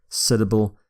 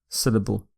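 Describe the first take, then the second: The two takes are said the same way.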